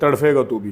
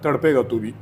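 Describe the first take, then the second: First: The middle consonant is an aspirated 'ph' sound. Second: The middle consonant is a plain 'p' sound. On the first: This copies the Indian pronunciation. The speaker calls it wrong. "Indian जो है हमेशा तड़फे बोलते हैं" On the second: This is the standard Urdu pronunciation. The speaker calls it right. "तड़पे तड़पे का होता है, तड़पेगा तू भी उर्दू में"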